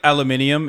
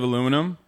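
First: It is said the British way, with five syllables. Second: It is said the American way, with four syllables. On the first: "how British people say like aluminium" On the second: "instead of aluminum"

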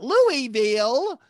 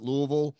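First: The name is said in full, syllable by syllable. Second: The name is clipped and slurred together. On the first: The speaker is not a real racing fan. The speaker calls it wrong. "and not" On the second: The speaker is a real racing fan. The speaker calls it right. "the way you know a real racing fan is they pronounce it"

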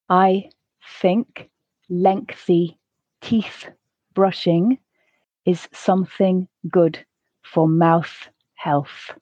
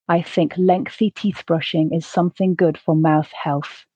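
First: The sentence is said at a slow pace. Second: The sentence is said at a natural pace. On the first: "once slowly" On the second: "once at a more natural pace"

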